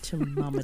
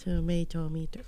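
First: The word is clipped to four syllables. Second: The word is said in full, five syllables. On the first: "I've always pronounced that as tomometer in my head" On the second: "there's an extra toe in there"

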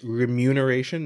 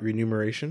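First: The word starts with 're-mu', m before n. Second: The word starts with 're-nu', n before m. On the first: The speaker calls it right. "did you know that it's remuneration" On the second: The speaker calls it wrong. "not renumeration"

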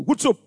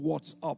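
First: It is said in a broad Bradford accent. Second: It is said in standard British English. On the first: "He spoke Bradford English" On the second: "instead of saying"

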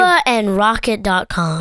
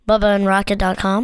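First: It is clearly articulated. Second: It is mumbled and unclear.

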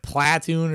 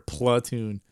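First: The first vowel sounds like a full 'ah'. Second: The first vowel sounds like a reduced 'uh'. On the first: "P L A H" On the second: "P L U H"

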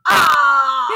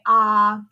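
First: The voice sounds tight and strained. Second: The voice sounds relaxed and easy.

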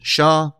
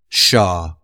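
First: The word is said with a high tone. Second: The word is said with a low tone. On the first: It means woman. "that's woman" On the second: It means mountain. "that means mountain"

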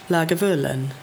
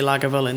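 First: The word is said with a lilting melody. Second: The word is said flat and straight. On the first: "It's got that kind of lilt in it" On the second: "They don't make it, like, really straight"

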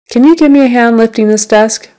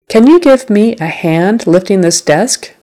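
First: It is said faster and more naturally. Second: It is said slowly and carefully.

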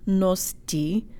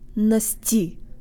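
First: The vowel is a full, rounded O sound. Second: The vowel is a short, neutral schwa sound. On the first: The speaker calls it wrong. "not nosti" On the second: The speaker calls it right. "the O represents a schwa sound here"

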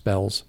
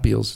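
First: The vowel sounds like a short 'eh'. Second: The vowel sounds like a long 'ee'. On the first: The speaker calls it right. "it's Bells" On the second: The speaker calls it wrong. "Everybody calls it Beals. It's not Beals"

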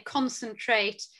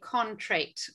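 First: The word is said with all its syllables. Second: The word is said with a middle syllable missing. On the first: The speaker calls it right. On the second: The speaker calls it wrong.

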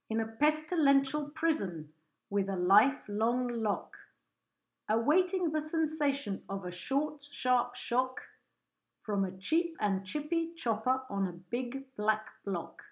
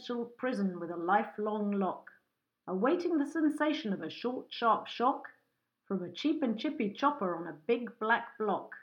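First: It is said at a slower pace. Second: It is said at a fast pace.

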